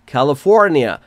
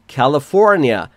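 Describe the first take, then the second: No difference in how they are said.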